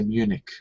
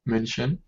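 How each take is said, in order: First: The name ends in a hard k sound. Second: The name ends in a soft ch sound. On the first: "in English we pronounce it like k at the end" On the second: "in German it would be München"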